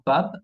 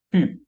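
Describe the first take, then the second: First: "pub" with an open a, as "pab"; wrong vowel. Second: "Pub" with French u and a voiced B; sounded final B. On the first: Teacher shows learners the mistake, "pub" said as "pab". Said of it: "Y no pub". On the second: French teacher models the right form, "Pub" with French u. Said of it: "que se pronuncia". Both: Shown as a demonstration.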